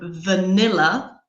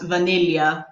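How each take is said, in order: First: It is said with a standard English pronunciation. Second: It is said with a Greek pronunciation.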